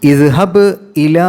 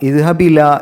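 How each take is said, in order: First: A glottal stop is kept before the second word. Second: The glottal stop is lost and words merge. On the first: The speaker calls it right. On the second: The speaker calls it wrong.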